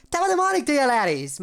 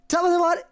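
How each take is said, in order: First: Much higher, louder hammed-up Irish voice; higher mock Irish impression. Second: Squeaky high mock Irish voice, loud; a bad try at an Irish lilt; attempted Irish impression. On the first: Retrying the Irish greeting for chat, even higher Irish voice. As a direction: push the Irish lilt way up for a laugh. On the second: Chat asked for an Irish greeting, so a shaky high Irish voice. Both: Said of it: "I need to go higher".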